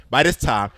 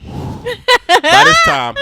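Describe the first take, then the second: First: Said in the usual way. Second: High, slow, breaking into laughter; laughing through it. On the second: Real, not acted. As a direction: say it while cracking up.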